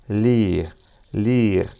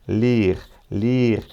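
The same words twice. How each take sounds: The two takes are said the same way.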